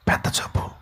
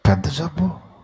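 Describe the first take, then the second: First: Whispered gossip; mock whisper. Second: Said in the usual way. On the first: Visitor gossiping about patient, in a mock whisper. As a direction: whisper it behind the sick man's back. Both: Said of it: "చెవులు కొరుక్కుంటారు".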